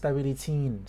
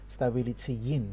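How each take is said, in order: First: The final e stretches into in, no glide. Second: A y sound links the e into in. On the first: The speaker calls it wrong. "it's just gonna end up elongating the e ... it's gonna sound a little bit weird" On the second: The speaker calls it right. "It's the best we can do when two vowels are next to each other"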